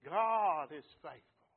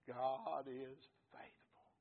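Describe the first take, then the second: First: Slow, loud proclamation; preached shout. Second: Said in the usual way. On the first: Acted. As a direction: shout it slowly to the church. Repeated line, quiet then shouted.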